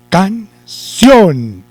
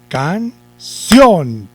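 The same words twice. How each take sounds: First: The stress is on the last syllable. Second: The same.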